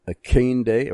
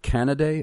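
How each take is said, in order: First: Canaday tried as two beats, "Akande" sounding like KAYN-day; tentative pronunciation. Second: "Canaday" in three beats, CAN-a-day; alternative pronunciation. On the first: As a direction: try "Akande" as a guess at the surname, like KAYN-day. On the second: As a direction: offer "Canaday" as the other guess, CAN-uh-day. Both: Shown as a demonstration. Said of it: "how do you pronounce that".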